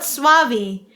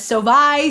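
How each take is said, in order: First: The name begins with a gliding 'swa' sound. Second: The name begins with a plain 'so' sound. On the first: The speaker calls it right. "everything but Suavi" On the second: The speaker calls it wrong. "I've said his last name as Sovi"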